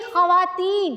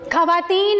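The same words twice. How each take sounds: First: The first sound is a throaty kh. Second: The first sound is a plain k. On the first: The speaker calls it right. "खे से बोलो, गले से आवाज निकालो" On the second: The speaker calls it wrong. "नहीं"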